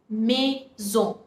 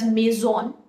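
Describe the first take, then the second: First: The final n consonant is not sounded. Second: The final n consonant is clearly sounded. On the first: The speaker calls it right. "We pronounce it as maison" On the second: The speaker calls it wrong. "we don't pronounce it as maison"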